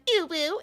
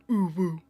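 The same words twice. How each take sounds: First: "ubu" pitched up high. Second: "ubu" dropped low; low-pitched ubu. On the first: Streamer correcting chat on "ubu", high-pitched. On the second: Streamer giving chat the replacement "ubu", low-pitched. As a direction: say "ubu" down in a low, far-from-usual voice. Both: Shown as a demonstration. Contrasts two ways of saying ubu.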